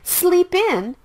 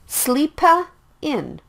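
First: The p links straight into in. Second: An extra vowel is added after sleep. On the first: The speaker calls it right. "Sleep in is the natural sound" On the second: The speaker calls it wrong. "Don't say it like sleepa in"

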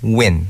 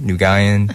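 First: The name is said as one syllable. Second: The name is said with several syllables. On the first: The speaker calls it right. "But it's Win, like Winning" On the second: The speaker calls it wrong. "They always pronounce it Nugin, Nugayan"

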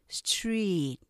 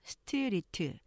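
First: It is said compactly without added vowels. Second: It is said in four syllables with added vowels. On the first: The speaker calls it right. "실제로는 street 이음절로 발음돼요" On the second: The speaker calls it wrong. "우리가 스트리트 이렇게 사음절로 발음하지만"

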